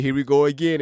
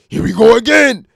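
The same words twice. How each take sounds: First: Said in the usual way. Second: Loud gruff rapper bark, higher and louder. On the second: Retold or imitated. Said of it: "in my D M X voice".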